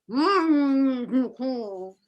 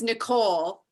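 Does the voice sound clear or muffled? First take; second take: muffled; clear. First: The voice is dampened and muffled. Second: The voice is loud and clear. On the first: "it surprised me how muffling that is" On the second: "just in a loud voice"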